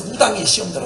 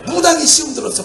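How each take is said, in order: First: Said in the usual way. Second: 무당이 said higher, amused; 무당이 raised in mock disbelief; laughing stress on 무당이. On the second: Real, not acted. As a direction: punch 무당이 with a chuckle.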